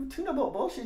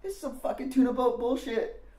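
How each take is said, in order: First: Much higher, rising incredulous repeat of tuna boat bullshit; puzzled echo. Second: Mocking Randy. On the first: Retold or imitated. Teen repeating Randy's insult back, puzzled and rising. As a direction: repeat his words back, lost. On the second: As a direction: sneer at the music like a punk older kid. Randy insults the tape.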